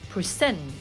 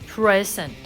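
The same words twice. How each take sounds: First: The stress is on the second syllable. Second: The stress is on the first syllable. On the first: It is used as a verb. "if it's the verb, that should be present" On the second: It is used as a noun. "If it is the noun, that should be present"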